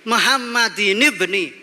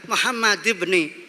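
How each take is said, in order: First: Muhammad ends with an added 'in' sound. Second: Muhammad ends plainly with no added 'in' sound. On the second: "kenapa dibaca Muhammad ibni?"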